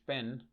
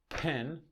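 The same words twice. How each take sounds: First: The p is released without a puff of air. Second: The p is released with a puff of air. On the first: This is how Spanish speakers say it. "But in Spanish, it wouldn't" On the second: This is how English speakers say it. "the first p is aspirated. It means there's a puff of air"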